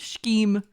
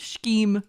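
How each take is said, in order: First: The word is pronounced in an odd, imitated way. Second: The word is pronounced in an odd, imitated way.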